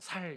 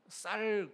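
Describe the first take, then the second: First: It starts with a plain, soft s sound. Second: It starts with a tense, strong s sound. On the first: "살 이렇게 발음하잖아요" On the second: "쌀 그러라면"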